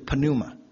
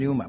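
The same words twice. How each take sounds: First: The word starts with a pronounced p sound. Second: The word starts with an n sound, p silent. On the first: "希腊文念法是p 要发音的" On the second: "我们英文念成pneuma"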